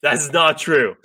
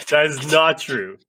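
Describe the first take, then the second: First: Said in the usual way. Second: Slower, with "not" leaned on firmly; stress on not. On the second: Real, not acted. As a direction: spell it out, hitting "not".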